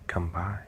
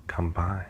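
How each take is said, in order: Both takes have the same delivery.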